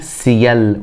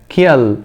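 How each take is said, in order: First: The word begins with a hissing S sound. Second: The word begins with a hard K sound. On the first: The speaker calls it right. "يبقى أقولها سيل وليس كيل" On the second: The speaker calls it wrong. "ما ينفعش اقول ك ك كيل، خطأ"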